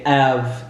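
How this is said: It is said in a French accent, dropping the h.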